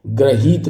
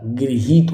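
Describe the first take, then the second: First: गृहीत begun as "gra"; slow, a-vowel first syllable in गृहीत; wrong pronunciation shown. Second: गृहीत begun as "gri"; slow, i-coloured first syllable in गृहीत; correct pronunciation shown. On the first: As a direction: say गृहीत slowly as "gra-heet". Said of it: "गृहीत नहीं होता". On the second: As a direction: say गृहीत slowly as "gri-heet". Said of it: "गृहीत होता है". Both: Shown as a demonstration.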